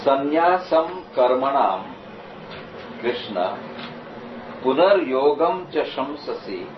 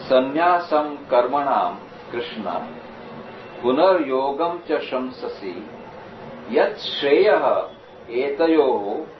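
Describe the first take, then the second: First: Sanskrit recitation. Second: Slow, measured verse reading; Sanskrit recitation. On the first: Reciting Sanskrit verse, slow. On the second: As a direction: recite the verse steadily, slowly. Recites the verse again, slower. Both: Shown as a demonstration.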